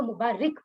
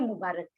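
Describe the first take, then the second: First: मुबारिक with a short "i" in the last syllable, ending "-rik"; mispronounced मुबारिक. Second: मुबारक with a short "a" in the last syllable, ending "-rak"; correct pronunciation मुबारक. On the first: Teacher showing students a common misreading, मुबारिक mispronounced with "-rik". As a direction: say मुबारिक wrongly, as "mu-baa-rik". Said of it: "मुबारिक right लफ्ज नहीं है". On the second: Teacher giving students the original word, मुबारक pronounced with "-rak". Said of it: "असल लफ्ज है मुबारक". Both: Shown as a demonstration.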